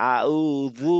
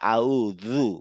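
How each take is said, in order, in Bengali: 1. ব্যঞ্জনটি th-এর মতো উচ্চারণ। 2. ব্যঞ্জনটি th-এর মতো উচ্চারণ।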